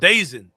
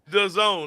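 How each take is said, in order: First: The name is said as one word, 'Dazen'. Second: The name is said as two words, 'the zone'. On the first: The speaker calls it wrong. "I think I'm pronouncing that correctly" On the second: The speaker calls it right. "That's how you say that"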